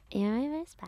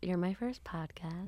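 First: It is said in a put-on child's voice. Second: It is said in a normal adult voice.

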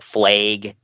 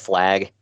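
First: The vowel is changed the Minnesota regional way. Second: The vowel is said the usual standard way.

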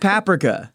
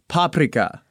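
First: The stress is on the second syllable. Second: The stress is on the first syllable. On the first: The speaker calls it wrong. "today we're discovering why I mispronounce words so badly, such as paprika" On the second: The speaker calls it right. "the Hungarian pronunciation is closer to paprika"

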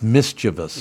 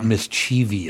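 First: It has three syllables, ending in a plain '-vus'. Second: It has four syllables, ending in '-vee-us'. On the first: The speaker calls it right. "It's mischievous" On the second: The speaker calls it wrong. "It's not mischievous"

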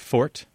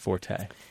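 First: The word is said as one syllable. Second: The word is said as two syllables. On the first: This is the minority usage of careful speakers. "most very careful speakers will pronounce it as fort" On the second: This is the usage of most people. "most people in general pronounce it as forte"

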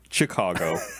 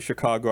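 First: It begins with a hard ch sound. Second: It begins with a soft sh sound.

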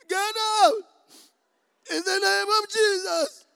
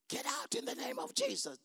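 First: It is said in a crying voice. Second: It is said in a plain voice.

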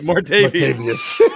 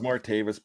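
First: The name ends in a longer '-vius' sound. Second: The name ends in a plain '-vis' sound. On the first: The speaker calls it right. "They say Martavius" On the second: The speaker calls it wrong. "you didn't pronounce it correctly for those in Pittsburgh"

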